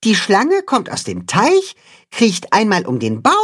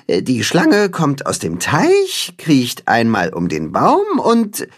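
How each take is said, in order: First: The first speaker demonstrating. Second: Slow careful repeat. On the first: The first speaker shows knot. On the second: The second speaker repeats slowly. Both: Acted.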